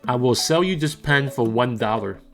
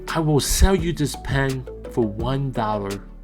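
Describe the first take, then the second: First: It is said in a plain, normal talking voice. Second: It is said in a sad, calm, subdued voice. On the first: "Here is my normal recording voice" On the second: "Here is my sad recording voice"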